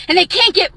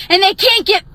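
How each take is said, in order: Both takes have the same delivery.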